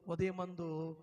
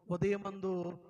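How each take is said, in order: Both takes have the same delivery.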